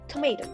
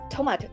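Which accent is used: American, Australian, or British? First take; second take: American; British. First: An American accent with an 'ay' middle vowel. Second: A British accent with an open 'ah' middle vowel. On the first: "U S use the diphthongs A" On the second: "in U K, they call it tomato"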